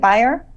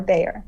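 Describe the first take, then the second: First: Beyer said like "BY-er"; first syllable of Beyer as "by"; pronunciation check. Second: Bayer said like "BAY-er"; first syllable of Bayer as "bay"; alternative pronunciation. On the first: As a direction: say Beyer to rhyme with "buyer". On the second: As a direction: say Bayer to rhyme with "player". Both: Shown as a demonstration. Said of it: "Is it Beyer or Bayer?".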